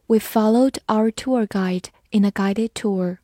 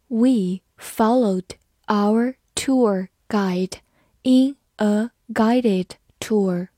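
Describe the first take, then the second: First: Said in the usual way. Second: Very slow, each word separated by a pause; slow reading. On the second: Shown as a demonstration. English teacher models guide versus guided tour, slow reading. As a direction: read it word by word, slowly.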